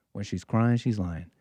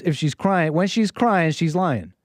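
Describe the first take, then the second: First: Softer, lower repeat of the slogan; quiet echo. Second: Said in the usual way. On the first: Real, not acted. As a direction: let it drop to an aside.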